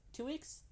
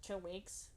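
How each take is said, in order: First: Much higher, rising squeak on weeks; the news finally sinks in; Two weeks said high with a sharp rise; shocked disbelief. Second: Said in the usual way. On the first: Acted. Repeats news, second time shocked.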